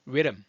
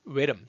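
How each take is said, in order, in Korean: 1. 영어 소리로 말해요, 시작이 둥글어요. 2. 영어 소리로 말해요, 시작이 둥글어요.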